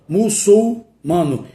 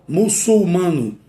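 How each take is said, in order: No difference in how they are said.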